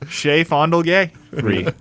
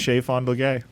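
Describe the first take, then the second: First: The phrase is said slowly and drawn out. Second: The phrase is said at a normal, quicker pace.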